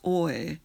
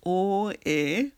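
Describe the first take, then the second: First: It is said as a single gliding syllable. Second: It is said as two separate vowel syllables. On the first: "we're just making one syllable as oe" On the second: "Sometimes we say that as o-e"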